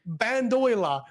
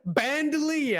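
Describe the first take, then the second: First: The word ends with an 'oiler' sound. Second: The word ends with a 'leer' sound. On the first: The speaker calls it wrong. "I'm reading bandoiler because that's how my brain has fucking said it" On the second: The speaker calls it right. "never had the reason to say bandolier out in the fucking out in the universe"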